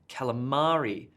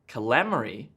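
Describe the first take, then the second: First: The stress falls on the expected syllable. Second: The stress falls on the unexpected syllable. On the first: The speaker calls it right. "No, you're going to order a calamari" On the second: The speaker calls it wrong.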